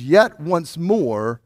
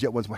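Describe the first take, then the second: First: "yet once more" drawn out slowly, each word weighed; slow quoted phrase. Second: "yet once more," tossed off quickly and much softer; quick quiet aside. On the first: Pastor pondering a puzzling verse for the congregation, slow and deliberate. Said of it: "could not figure out how the words". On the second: Pastor repeating the puzzling phrase to himself, softly and quickly. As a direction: drop "yet once more," to a low murmur. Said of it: "what those three words". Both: Shown as a demonstration.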